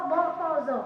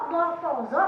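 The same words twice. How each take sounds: The two takes are said the same way.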